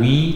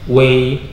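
First: The syllable is said as wi. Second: The syllable is said as wei. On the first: The speaker calls it wrong. "bukan wi" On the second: The speaker calls it right. "tapi wei"

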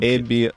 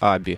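First: The name starts with an 'eh' vowel. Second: The name starts with an 'ah' vowel. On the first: The speaker calls it wrong. "некоторые" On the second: The speaker calls it right. "правильное имя компании произносится Аби"

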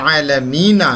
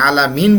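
First: The word ends with a final vowel sound. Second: The word stops on the final consonant. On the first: The speaker calls it wrong. "যদিও আমি বলেছি আলহামদুলিল্লাহি রব্বিল আলামিন" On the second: The speaker calls it right. "থামিয়ে দিয়ে আলামিন বলি, শেষের জবরটা উচ্চারণ করি না"

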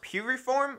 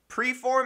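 First: The name is said with three syllables. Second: The name is said with two syllables. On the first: The speaker calls it right. "I think it's pronounced Puriform or something like that" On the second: The speaker calls it wrong. "I started out calling the company Preform"

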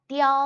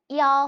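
The two takes are said the same way.

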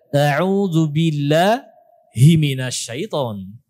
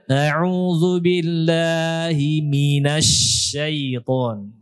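First: The intonation sounds odd and broken off. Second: The intonation sounds smooth and natural. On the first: The speaker calls it wrong. "seakan-akan dia membaca" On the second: The speaker calls it right. "Harusnya gimana?"

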